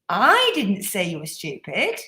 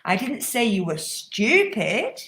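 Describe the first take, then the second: First: The word I carries the main stress. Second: The word stupid carries the main stress. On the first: Someone else said it. "It was my friend over here who said it" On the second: Maybe something worse was said. "I might have said something worse"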